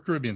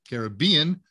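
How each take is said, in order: First: The stress is on the second syllable. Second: The stress is on the third syllable. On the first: "Second syllable" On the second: "Third syllable"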